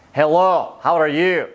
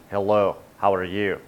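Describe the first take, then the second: First: Loud, hammed-up Scottish greeting; Scottish accent. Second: Low-pitched mock Russian greeting; Russian accent. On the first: Host demonstrating vocal range to viewers, playful Scottish accent. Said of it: "here's my Scottish accent". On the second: Host demonstrating vocal range to viewers, low Russian accent. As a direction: drop low for a rough attempt at Russian. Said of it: "Or you could do Russian". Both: Shown as a demonstration.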